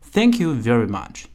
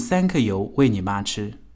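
First: It is said with native-like English sounds. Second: It is said with Chinese-style syllables. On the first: The speaker calls it right. "Thank you very much，而不是" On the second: The speaker calls it wrong. "而不是三克油喂你妈吃"

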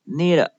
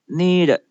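First: The ending sounds like 'need it'. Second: The ending sounds like 'need it'.

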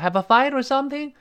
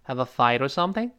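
First: The voice does not rise at the end. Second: The voice dips, then rises at the end. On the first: The speaker calls it wrong. "你要是have a fight or something 就没法往上扬了" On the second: The speaker calls it right. "Have a fight 先往下沉or something 后面才能扬起来"

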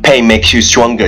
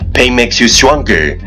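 First: It is spoken very fast, in one breath. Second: It is spoken at a moderate, steady pace.

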